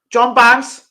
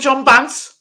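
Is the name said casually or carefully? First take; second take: carefully; casually. First: The name is said clearly and with care. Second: The name is said loosely, in a casual accent. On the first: The speaker calls it right. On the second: The speaker calls it wrong.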